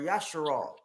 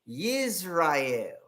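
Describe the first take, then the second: First: The name begins with the sounds 'yasha'. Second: The name begins with the sound 'yis'. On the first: The speaker calls it right. "When it's Yasharala or Yasharal" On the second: The speaker calls it wrong. "think they got the real language saying Yisrael"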